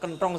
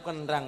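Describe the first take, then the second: First: The second vowel is an o sound. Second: The second vowel is an open a sound. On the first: This is the standard Javanese way of saying it. The speaker calls it wrong. "mboten kenthong" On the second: This is the ngapak way of saying it. The speaker calls it right. "Tetep kenthang"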